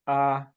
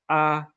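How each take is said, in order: First: The pitch stays mid and level. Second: The pitch stays high and level. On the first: "the mid-flat tone" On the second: "We have the high flat"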